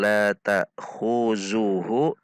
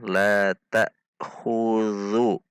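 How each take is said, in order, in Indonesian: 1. Konsonannya dibaca seperti z yang berdengung. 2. Konsonannya dibaca seperti th lunak yang bersuara.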